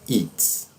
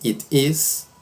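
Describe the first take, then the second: First: It is contracted to one syllable. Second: It is said with a clear t. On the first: "e a forma mais comum, que é a do spoken English" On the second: "temos estas duas formas"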